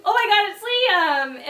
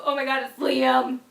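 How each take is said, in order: First: Higher and louder, squealing with delight; peak excitement. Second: Said in the usual way. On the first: Retold or imitated. The surprise fully sinking in, squealing at the friend. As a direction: hit the top of the thrill. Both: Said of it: "And then it turned into".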